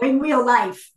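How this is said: It is said imitating her four-year-old's voice.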